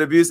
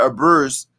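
First: Said in the usual way. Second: "abuse" said as uh-BURSE; mimicked mispronunciation. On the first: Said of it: "and I said abuse". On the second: Host retells a fan caller's word, mimicked mispronunciation.

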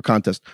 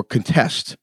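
First: "contest" said CON-test, as the noun; stress on first syllable. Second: "contest" said con-TEST, as the verb; stress on second syllable. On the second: Put the stress on the first syllable. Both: Shown as a demonstration.

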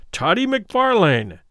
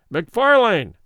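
First: Slow insistent call. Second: Loud call. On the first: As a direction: call the full name slowly and deliberately, higher. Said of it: "repeated Fetz". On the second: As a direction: call the name out loud, like a herald. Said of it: "he said somewhat loudly". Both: A narrator's reading.

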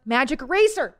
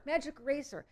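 First: Louder, higher correction of the name. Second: Softer confirming repeat of Magic Eraser. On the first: Correcting the product name for listeners, louder. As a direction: call out the right name, louder. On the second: Confirming the product name for listeners, softer. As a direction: say it again softly to yourself. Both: Real, not acted. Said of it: "Easy Eraser".

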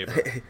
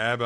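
First: [name] with a long A, as in "able"; own pronunciation. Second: [name] with a short A, as in "cab"; partner's pronunciation. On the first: Co-host gives his own version to his partner, [name] as AY-buh. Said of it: "I say [name]". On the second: Co-host quotes his partner's version, [name] with a short A. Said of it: "You say [name], I say [name]". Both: Shown as a demonstration.

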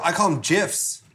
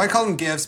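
First: "gifs" with a soft G, like "jifs"; soft-G pronunciation. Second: "gifs" with a hard G, as in "gift"; hard-G pronunciation. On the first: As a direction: say "gifs" starting with a J sound. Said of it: "are they gifs or gifs". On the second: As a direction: say "gifs" starting like the G in "go". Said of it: "but you were like, "They're gifs". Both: Shown as a demonstration.

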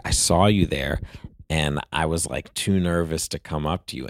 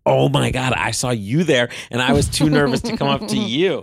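First: Said in the usual way. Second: Imitating her gushing back, higher and louder; excited echo. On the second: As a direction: throw his words back at him, thrilled and bubbly. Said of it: "And she was like".

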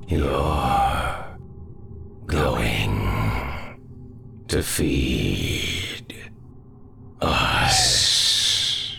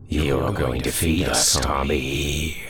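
First: Slow, each word apart, ghostly; drawn-out shadow threat. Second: A louder ghostly threat; menacing shadow voice. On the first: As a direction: stretch every word like a curse. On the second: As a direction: tell him he's the next meal. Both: Acted.

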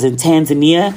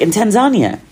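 First: "Tanzania" as tan-zuh-NEE-uh; mispronounced Tanzania. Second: "Tanzania" as tan-ZAHN-ya, high then falling; corrected Tanzania. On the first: Visitor naming where she was, "Tanzania" as tan-zuh-NEE-uh. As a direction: say "Tanzania" the American way, stress on NEE. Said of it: "I can't pronounce shit". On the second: Friend correcting the visitor, "Tanzania" as tan-ZAHN-ya. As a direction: say "Tanzania" with stressed ZAHN, pitched up. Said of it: "and she was like". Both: Retold or imitated.

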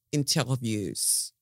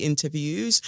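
First: Slow, drawn-out fake French accent. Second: Said in the usual way. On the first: Shown as a demonstration. Podcaster playfully showing off to listeners, mock French accent. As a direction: say "interviews" as if it were French. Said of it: "as they like to say in France". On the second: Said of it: "or as they like to say in France".

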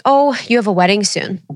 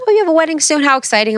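First: Said in the usual way. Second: High, bubbly imitation of a chatty clerk; sing-song store clerk cooing over a wedding; mock gushing clerk. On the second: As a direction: play up her excitement, pitch way up.

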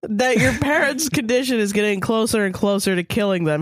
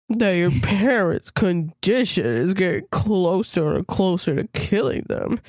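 First: Said in the usual way. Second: Slower, with a touch of sorrow; slowly and sadly. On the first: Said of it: "Sorry, I'll say that again". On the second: A narrator's reading. Vet telling Kara her parents are dying, slow and sad. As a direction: deliver the bad news gently and sadly. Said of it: "he says slowly and sadly".

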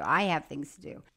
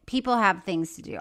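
First: I emphasized, the rest dropping low; stress on I. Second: PEOPLE carries the emphasis, then falls; stress on People. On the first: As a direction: lower pitch, leaning on I. Contrasts herself with people. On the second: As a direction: lean on the word People. Contrasts people with herself. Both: Real, not acted.

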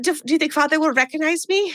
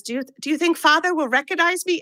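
First: Mock foreign child accent, pitched higher; Esther's put-on accent again. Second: Hammed-up foreign child accent, pitched higher; Esther's put-on accent. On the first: Host re-quoting Esther about Father, in a mock accent. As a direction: repeat the line in Esther's strange accent. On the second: Host imitating Esther asking about Father, in a mock accent. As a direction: mimic Esther's odd accent badly on purpose. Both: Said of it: "I'm so sorry about this accent".

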